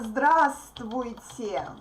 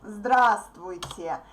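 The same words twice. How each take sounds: Both takes have the same delivery.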